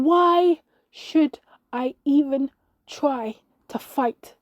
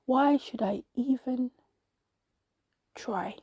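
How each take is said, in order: First: Loud, slow, each word punched out apart; higher, exasperated cry, drawn out; annoyed outburst. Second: Slow, resigned, dropping away on the last word; dejected sigh. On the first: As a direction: throw it back in exasperation. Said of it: "I got annoyed at that voice". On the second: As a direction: let it sink into defeat. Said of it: "and I sighed". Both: A narrator's reading.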